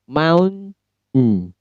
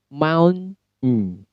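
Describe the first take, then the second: The two takes are said the same way.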